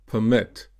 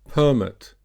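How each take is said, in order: First: PerMIT, stressed on the second syllable. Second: PERmit, stressed on the first syllable. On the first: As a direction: say permit as a verb, per-MIT. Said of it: "verb will be usually stressed on the second". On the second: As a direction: say permit as a noun, PER-mit. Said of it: "noun will be usually stressed on the first". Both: Shown as a demonstration.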